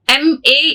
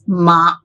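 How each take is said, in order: First: Each letter is said separately. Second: The letters are blended into one word. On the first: The speaker calls it right. "Indi- independently, we pronounce these letters" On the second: The speaker calls it wrong. "We cannot pronounce this as Ma"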